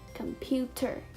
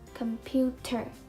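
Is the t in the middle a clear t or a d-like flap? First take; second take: clear t; clear t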